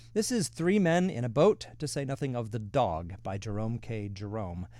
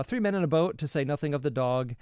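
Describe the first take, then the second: First: Title announcement. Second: Emphatic title repeat. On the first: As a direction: present the title like a proud reveal, lifting "is". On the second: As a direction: hit "Three" hard as you name the book again. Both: Real, not acted.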